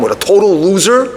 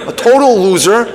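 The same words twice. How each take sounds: First: Mock angry complaint; venting to dad. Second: Higher, louder mock outburst on "total loser"; louder venting. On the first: Daughter scolding her father over the date, irritated. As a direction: lay into him, starting to heat up. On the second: Daughter scolding her father, outrage rising. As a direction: hit "total" harder the second time. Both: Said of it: "she lets him have it".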